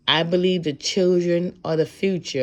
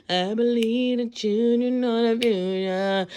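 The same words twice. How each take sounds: First: Said in the usual way. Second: Slow, empty sing-song parroting of the lyric; mock someone reciting without thinking; mindless recitation. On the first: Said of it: "I'm gonna quote the best person". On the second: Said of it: "Don't just".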